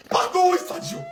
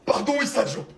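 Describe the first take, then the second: First: Excuses en pleurnichant, voix montée; faux sanglots. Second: Said in the usual way. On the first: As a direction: pleurnicher l'excuse pour rire. Excuses répétées, deux prises. (pardon larmoyant et exagéré)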